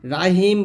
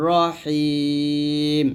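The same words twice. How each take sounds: First: "রাহিম" quick, open a after a light r; everyday "রাহিম" with no long ending; mistaken light r. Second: "রহিম" with rounded r and long held i; chanted, drawn-out "রহিম"; correct heavy r. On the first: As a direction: say "রাহিম" plainly, unstretched. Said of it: "রাহিম বলবেন না". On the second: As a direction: stretch "রহিম" slowly, full r and throaty h. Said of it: "এরকম". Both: Shown as a demonstration.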